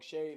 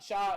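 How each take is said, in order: First: The vowel sounds like 'ay'. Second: The vowel sounds like 'aw'. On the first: The speaker calls it wrong. "I don't think it's Shay" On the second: The speaker calls it right. "I think it's Shaw Gilgeous"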